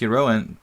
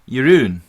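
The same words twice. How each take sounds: First: The name is said with an English-style pronunciation. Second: The name is said with a Dutch-style pronunciation. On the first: The speaker calls it wrong. "It's not pronounced Jeroen" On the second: The speaker calls it right. "but like Jeroen"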